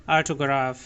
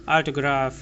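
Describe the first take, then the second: The two takes are said the same way.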